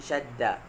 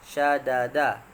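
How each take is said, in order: First: The two d sounds merge into one doubled d. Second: The two d sounds are said separately. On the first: This is the form after assimilation. "maka di idghamkan, digabungkan, maka berbunyi syadda" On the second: This is the original underlying form. "Syadda asalnya syadada"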